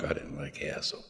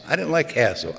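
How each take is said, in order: First: Much lower and softer, almost under the breath; murmured aside repeating "hassle"; hushed emphatic repeat. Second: Said in the usual way. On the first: Real, not acted. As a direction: drop "I didn't like hassle" down low and quiet.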